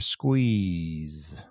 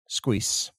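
First: The final sound is a voiced z. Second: The final sound is a voiceless s. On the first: The speaker calls it right. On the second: The speaker calls it wrong.

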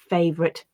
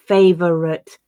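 First: The middle syllable is dropped from the word. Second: The word is said with an extra middle syllable. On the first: The speaker calls it right. "they tend to be reduced to" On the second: The speaker calls it wrong. "my learners would often read as"

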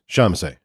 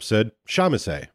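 First: The word is articulated loosely with a lazy tongue. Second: The word is articulated carefully and crisply.

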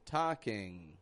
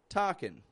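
First: The word ends with a back ng sound. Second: The word ends with a quick n sound. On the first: "a little bit of a different nasal position" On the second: "just pronounce a quick N sound"

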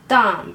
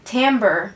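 First: It is pronounced the French way. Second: It is pronounced the American way. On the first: "法文里面的发音是timbre" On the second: "在美国他们会念timbre"

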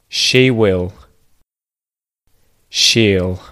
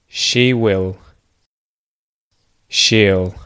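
No difference in how they are said.

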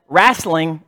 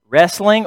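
First: The first vowel sounds like 'rah'. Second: The first vowel sounds like 'reh'. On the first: This imitates how someone else pronounced it. "or as Johnny said" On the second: This is the speaker's own usual pronunciation. "I don't get into wrestling"

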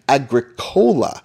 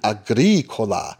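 First: It is said like a soft drink name. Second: It is said to rhyme with Ricola. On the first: The speaker calls it wrong. "mispronouncing it Agricola, like it was a soft drink" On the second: The speaker calls it right. "the proper Latin Agricola, to rhyme with Ricola"

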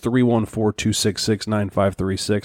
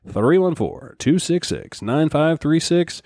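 First: The number is read at normal speed. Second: The number is read slowly.

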